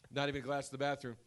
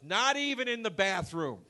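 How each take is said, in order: First: Said in the usual way. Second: High, emphatic mock-elderly complaint; old man impression. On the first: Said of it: "And I go". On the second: Old man ranting in the elevator about cups, high indignant mimicry. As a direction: exclaim it as an outraged old man. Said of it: "and he goes".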